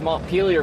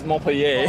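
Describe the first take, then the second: First: The name is said with an American pronunciation. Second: The name is said with a French pronunciation. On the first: "they say it very American" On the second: "It's named after a French town"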